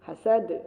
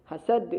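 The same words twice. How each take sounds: Both takes have the same delivery.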